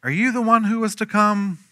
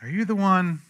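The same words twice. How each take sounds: First: Questioning. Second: Doubtful plea. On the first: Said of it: "sent his disciples to ask him". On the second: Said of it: "That's a loaded question". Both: Retold or imitated.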